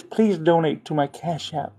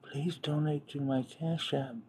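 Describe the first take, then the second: First: Said in the usual way. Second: Breathy near-whisper plea; soft mock whisper of Channing; imitating Channing. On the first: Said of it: "She says". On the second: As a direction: hush it like a coy plea. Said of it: "Let me do her voice".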